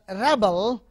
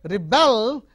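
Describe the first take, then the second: First: The stress is on the first syllable. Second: The stress is on the second syllable. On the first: It names a person who protests. "a rebel, a person who rebels" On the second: It names the act of protesting. "rebelling against somebody"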